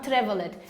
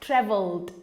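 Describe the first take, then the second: First: The ending is said as an extra syllable. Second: The ending joins the word with no extra syllable. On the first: The speaker calls it wrong. "Not traveled" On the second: The speaker calls it right. "it goes at one, one, one time"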